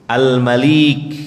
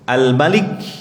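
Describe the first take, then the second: First: The vowel after the L is long. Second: The vowel after the L is short. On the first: "dan panjang" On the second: "dibaca pendek"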